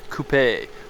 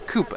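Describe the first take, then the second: First: The word is said the non-American way. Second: The word is said the American way.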